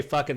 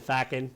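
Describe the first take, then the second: First: Said in the usual way. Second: "fackin'" with an open A and a dropped G; Irish "fackin'". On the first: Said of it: "they didn't say". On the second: Shown as a demonstration. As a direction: soften it to "fackin'" like a casual Irish swear. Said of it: "they said".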